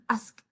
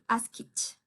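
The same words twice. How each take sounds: First: The ending sounds like a 't'. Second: The ending sounds like 'ed'. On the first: The speaker calls it right. "un poquito más fuerte, con la letra T" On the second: The speaker calls it wrong. "Ya no voy a decir asked"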